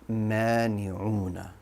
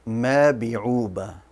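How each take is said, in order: First: The word uses n sounds in those places. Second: The word uses b sounds in place of n. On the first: The speaker calls it right. "It should be mani'una" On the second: The speaker calls it wrong. "I pronounced it as a bat"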